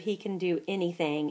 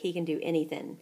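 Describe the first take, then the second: First: It is said in the speaker's plain everyday accent. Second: It is said in a deep street British accent.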